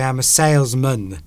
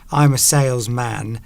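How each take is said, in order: First: The final syllable is a short, reduced mun. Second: The final syllable is a full, drawn-out man. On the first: The speaker calls it right. "the man becomes mun at the end" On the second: The speaker calls it wrong. "You don't go"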